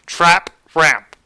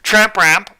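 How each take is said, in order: First: The term is said slowly and carefully. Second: The term is said with a garbled sound. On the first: The speaker calls it right. "I had to pause there so that way I made sure I said it right" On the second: The speaker calls it wrong. "I can't pronounce it, so it's either tramp ramp"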